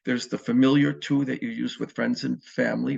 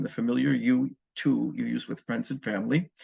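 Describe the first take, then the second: First: Said in the usual way. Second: "you" set apart and lifted, correcting "to"; correcting the slip, stress "you"; corrected stress on you. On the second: Shown as a demonstration. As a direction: lean on the word "you" as the fix. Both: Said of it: "I mean".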